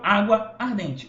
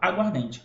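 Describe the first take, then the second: First: Both words are said separately, keeping both a sounds. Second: The words merge into one, dropping one a sound. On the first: The speaker calls it wrong. "eu não falo água ardente" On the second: The speaker calls it right. "eu falo aguardente. Eu uno tudo"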